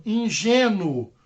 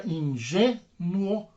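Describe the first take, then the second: First: "ingênuo" as one word, long strong GÊ; stressed example word. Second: "ingênuo" very slowly split, in-GÊ-nuo; syllable by syllable. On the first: Teacher presenting an example word, "ingênuo" whole with stressed GÊ. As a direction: announce "ingênuo" whole, leaning on GÊ. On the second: Teacher showing the tonic syllable, "ingênuo" slowly split in-GÊ-nuo. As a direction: break "ingênuo" apart, holding GÊ and separating nuo. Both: Shown as a demonstration. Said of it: "é a sílaba tônica".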